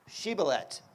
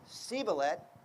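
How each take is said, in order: First: The word begins with a sh sound. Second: The word begins with an s sound. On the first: The speaker can pass the password test. The speaker calls it right. "It starts with the letter Shin" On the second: The speaker is revealed as an outsider. The speaker calls it wrong. "They could only pronounce a s sound"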